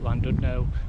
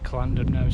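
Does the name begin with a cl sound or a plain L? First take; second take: plain L; cl sound. First: The double L is said as a plain L. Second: The double L is said like a cl sound.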